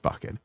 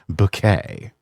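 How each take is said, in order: First: The name sounds like the word bucket. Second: The name sounds like the word bouquet. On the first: The name is said as it is spelled. "even though it's spelled bucket" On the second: The name is given a fancy, refined sound. "always pronouncing it Bouquet"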